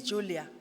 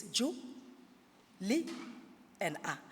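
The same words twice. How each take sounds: First: Said in the usual way. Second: Julia broken into "Ju", "Li", "A" with long pauses; syllable by syllable. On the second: Shown as a demonstration. Teacher counting the syllables of Julia, each said separately. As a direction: say "Ju, Li, and A" as separate beats. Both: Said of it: "Julia has three syllables".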